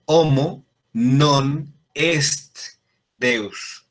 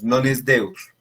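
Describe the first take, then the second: First: Homo non est Deus, slow and deliberate, the t of est clearly sounded; correct Latin pronunciation. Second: Non es Deus with the t of est dropped, es run into Deus; sloppy mass pronunciation. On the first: Teacher to Latin class, showing the correct pronunciation slowly. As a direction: spell out est with a crisp final t, word by word. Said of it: "No, es". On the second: Teacher to Latin class, mimicking sloppy mass Latin. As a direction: say es, not est, the careless way. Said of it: "no pronunciamos bien las palabras". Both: Shown as a demonstration.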